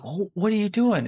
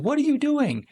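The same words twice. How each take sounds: First: Put-on higher-pitched, dismayed kid's outcry; mock a child's startled protest; shocked kid. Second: Very high-pitched mock outcry; alarmed mom. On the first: Son sees dad burn the money, shocked, higher-pitched. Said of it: "And the kid's like". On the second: Mom rushes in on dad, alarmed, very high-pitched. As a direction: imitate a mom rushing in aghast. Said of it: "And the mom rushes in".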